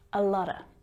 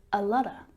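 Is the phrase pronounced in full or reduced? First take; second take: reduced; reduced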